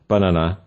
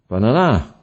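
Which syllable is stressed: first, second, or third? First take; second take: first; third. First: The stress is on the first syllable. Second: The stress is on the third syllable. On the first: "rather than banana" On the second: "or banana"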